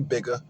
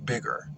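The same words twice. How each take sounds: First: The word ends with an open 'uh' sound. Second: The word ends with an 'er' sound. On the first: "you don't put the A on any other E R word" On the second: "you say bigger"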